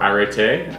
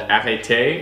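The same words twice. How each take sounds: First: The word is said without a French accent. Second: The word is said with a French accent. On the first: "or not" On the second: "with an accent"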